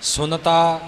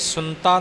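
First: Every sound of the word is said clearly. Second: The word is said hastily, with sounds blurred. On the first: The speaker calls it right. "ਸ਼ੁੱਧ ਉਚਾਰਨ ਕਰਨਾ ਹੈ ਸਪਸ਼ਟ ਰੂਪ ਵਿੱਚ" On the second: The speaker calls it wrong. "ਇਉਂ ਕਾਹਲੀ ਵਿੱਚ ਨਹੀਂ ਬੋਲ ਜਾਣਾ"

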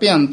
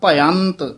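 First: The word ends on a plain 't' sound. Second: The word ends with a short 'i' vowel. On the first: The speaker calls it wrong. "ਇਸ ਤਰ੍ਹਾਂ ਭਯੰਤ ਕਵਾਂਗੇ ਤਾਂ ਭੱਬੇ ਸਿਹਾਰੀ ਐੜੇ ਉੱਤੇ ਟਿੱਪੀ ਤੱਤਾ ਭਯੰਤ ਹੋ ਜਾਏਗਾ" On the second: The speaker calls it right. "ਇਹ ਬੋਲਣਾ ਭਯੰਤ"

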